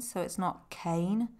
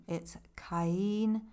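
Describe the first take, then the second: First: Cain said as one syllable, KAYN, rhyming with rain; the English one-syllable Cain, KAYN; wrong Cain. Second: Caín said ka-EEN, two syllables, stress on the í; Caín split into ka and EEN; correct Caín. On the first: Teacher showing learners the wrong Cain, said as one syllable. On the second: Teacher giving learners the right Caín, two syllables. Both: Shown as a demonstration.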